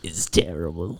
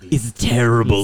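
First: Low, voiceless whisper; whispered disgust. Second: "terrible" stretched out in mock disgust; full-voiced, weary "terrible". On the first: Pretend. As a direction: whisper "terrible" in mock despair. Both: Mock-disgusted repeats of one verdict.

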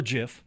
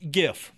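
First: "gif" pronounced like jif, with a J sound; soft G. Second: "gif" with a hard G as in go. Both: Shown as a demonstration. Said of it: "or gif".

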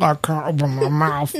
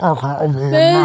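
First: Put-on mumbling through closed lips like a baby; talking with mouth closed. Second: Lips pressed shut, muffled words; talking with mouth closed. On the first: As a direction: keep the lips shut while talking. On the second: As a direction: say it without opening the mouth. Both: Shown as a demonstration. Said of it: "That's the way babies sound when they can't open their mouth".

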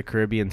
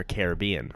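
First: "Caribbean" as kuh-RIB-ee-un; second-syllable stress. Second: "Caribbean" as kair-uh-BEE-un; third-syllable stress. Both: Shown as a demonstration. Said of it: "whatever you're saying it".

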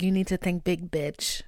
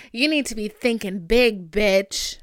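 First: Said in the usual way. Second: Louder, punchier repeat; louder emphatic repeat. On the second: Real, not acted. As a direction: hammer the point home. Repeats line, second time louder.

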